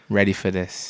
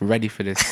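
First: It is said with little energy. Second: It is said with lots of energy.

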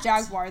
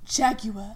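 First: Jaguar is said with a non-British pronunciation. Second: Jaguar is said with a British pronunciation. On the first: This is not how British people say it. "Don't say Jaguar" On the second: This is how British people say it. "They say Jaguar"

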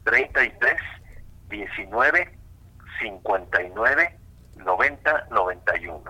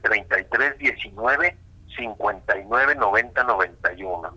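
First: The number is said slowly. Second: The number is said at normal speed.

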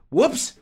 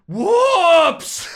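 First: It is said lightly and casually. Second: It is screamed loudly as if in pain. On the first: Something was dropped by accident. The speaker calls it right. "an exclamation that you use when you drop something" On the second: The speaker is in serious pain. The speaker calls it wrong. "And screaming"

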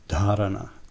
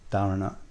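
First: The first consonant has breathy aspiration. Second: The first consonant has no breathy aspiration. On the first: The speaker calls it right. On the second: The speaker calls it wrong.

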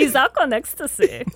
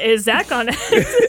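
First: It is said in a put-on German voice. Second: It is said in a normal voice.

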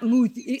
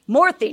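First: The vowel sounds like 'oo' without an r. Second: The vowel sounds like 'or' with an r. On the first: The speaker calls it wrong. "we Americans, we want to go moo" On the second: The speaker calls it right. "Morthy, not Moothy"

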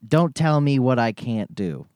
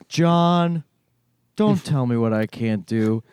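First: It is said in his normal voice. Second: It is said in a Garfield voice.

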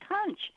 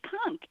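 First: The word ends with a 'ch' sound. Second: The word ends with a 'k' sound. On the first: The speaker calls it wrong. "it's spelled C-O-N-C-H, so the natural tendency is to say conch" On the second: The speaker calls it right. "but the actual pronunciation is conch"

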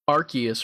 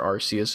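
First: The name is said the common current way. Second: The name is said the longtime-fan way.

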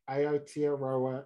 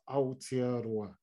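First: The word is said with an anglicised pronunciation. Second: The word is said with a Māori pronunciation. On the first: "target pronunciation" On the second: "have the courage to turn"

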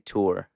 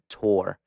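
First: The vowel is a long drawn-out 'oor' sound. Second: The vowel sounds like the word 'tore'. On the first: This is the speaker's own way of saying it. "I over-exaggerate the oor" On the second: Someone else says it this way. "she pronounced it tour, like I tore something apart"

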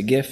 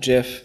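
First: The word begins with a hard g sound. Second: The word begins with a j sound. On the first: The speaker calls it right. "I say GIF, ... as the G stands for graphic" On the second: The speaker calls it wrong. "not GIF"

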